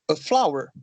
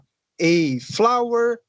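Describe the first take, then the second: First: The article is a quick, weak 'uh' sound. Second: The article sounds like the letter name 'ay'. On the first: "um sonzinho rápido" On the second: "como se fosse o alfabeto em inglês"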